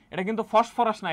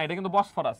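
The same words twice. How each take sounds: First: ফসফরাস said with a clear ph; ফসফরাস, not the strait's name; wrong word Phosphorus. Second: বসফরাস said with a clear b; বসফরাস, the right strait name; correct name Bosphorus. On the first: (ভুল নাম ফসফরাস, প-এর জায়গায় ফ) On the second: (সঠিক নাম বসফরাস, ব দিয়ে স্পষ্ট) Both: Shown as a demonstration.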